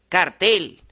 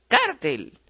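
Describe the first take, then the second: First: The stress is on the last syllable. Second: The stress is on the next-to-last syllable.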